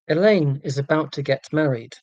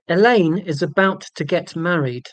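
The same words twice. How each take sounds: First: It is said quietly and less clearly. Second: It is said loudly and more clearly. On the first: The speaker calls it wrong. "my volume and diction was so poor" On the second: The speaker calls it right. "I will be clearer and louder"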